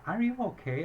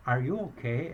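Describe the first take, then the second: First: Much higher-pitched imitation of a worried question; heightened concern. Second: Lightly voiced concerned question, near usual pitch; concerned check. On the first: Embassy clerk asks as crying worsens, high-pitched concern. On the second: Embassy clerk asks the crying caller, mildly concerned. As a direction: ask with mild concern, rising on the question.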